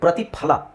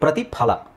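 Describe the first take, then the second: The two takes are said the same way.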